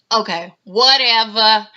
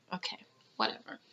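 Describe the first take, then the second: First: a rapper's voice. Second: Breathy unvoiced mock whisper, much softer; a rapper's voice. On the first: Retold or imitated. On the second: Mocking a reality star's brush-off, whispered. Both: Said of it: "in a rapper's voice".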